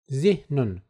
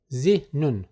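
No difference in how they are said.

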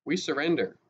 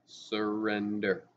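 First: Said in the usual way. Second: Slow, deliberate surrender; said more slowly. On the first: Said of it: "Hideki said". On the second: A narrator's reading. Boy spelling it out for soldier, slow. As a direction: stretch the word "Surrender" out slowly, syllable by syllable. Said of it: "pronounced the Japanese word more slowly".

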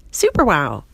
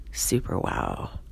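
First: Loud, impressed outburst; louder, falling cry of admiration; amazed exclamation. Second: Low, slow, hushed wonder; soft, drawn-out low repeat; awestruck murmur. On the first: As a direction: exclaim it at full wonder. Steve marvels at her new looks. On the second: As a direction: let it sink away in awe. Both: Acted.

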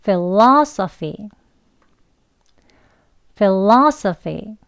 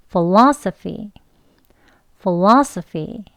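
First: "philosophy" very slowly with a full F at the start, fi-lo-so-fi; teacher's standard "philosophy"; standard F pronunciation. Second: "philosophy" very slowly with a light, weak f, fo-la-so-fi; teacher showing the weak f alternative; weak f variant. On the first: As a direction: model "philosophy" with clear F sounds, very slowly. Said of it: "두 번 해보겠습니다". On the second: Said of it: "f 하는 약하게 하는 발음으로요". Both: Shown as a demonstration.

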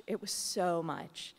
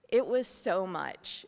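First: Said in the usual way. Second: Louder and slow, pressing each word; emphatic, overwhelmed. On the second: Real, not acted. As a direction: let the weight of it all land hard. Overwhelmed by deaths, first take.

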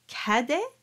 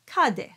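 First: Cadet with an open A, as in tap. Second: Cadet with a dark A, as in top; closed A. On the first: Teacher asking singers which sound they choose, cadet with open A. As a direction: say cadet with the A forward. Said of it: "Is it an open A as in tap". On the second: Teacher offering singers the other choice, cadet with closed A. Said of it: "is it a closed A as in top". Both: Shown as a demonstration.

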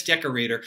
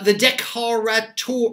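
First: Said in the usual way. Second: "decorateur" said the French way, day-koh-rah-TUHR; "decorateur" in French, not English; French pronunciation. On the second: Shown as a demonstration. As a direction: give "decorateur" its French sounds, stress on the last syllable. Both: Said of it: "or I guess decorator".

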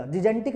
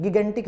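First: जिजेंटिक with a soft j sound for both g's; soft-g pronunciation. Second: गिगेंटिक with a hard g in both syllables; hard-g pronunciation. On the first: Teacher shows students the rejected variant, soft-g जिजेंटिक. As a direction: say जिजेंटिक with "ji-jen" at the start. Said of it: "जिजेंटिक नहीं है". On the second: Teacher gives students the word to say, hard-g गिगेंटिक. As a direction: say गिगेंटिक with "gi-gen" at the start. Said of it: "गिगेंटिक है". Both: Shown as a demonstration.

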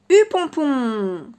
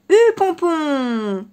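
First: Slow, stretched giddy-up call; drawn-out call. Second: Loud, slow drawn-out rider's command; giddy-up call. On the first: A narrator's reading. Narrator announcing the chapter title to the children, slow and stretched. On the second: Acted. The fox on horseback urges the horse, loud and drawn out.

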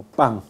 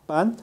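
First: "pan" ending like pang; velar final n. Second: "pan" with a tongue-tip n; alveolar final n. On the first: Teacher models lowland Latin American speech, velar "pan". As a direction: finish "pan" with a back-of-tongue ng. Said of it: "sino como pan". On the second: Teacher contrasts standard Spanish for class, alveolar "pan". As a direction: finish "pan" on the gum ridge. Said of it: "No como". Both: Shown as a demonstration.

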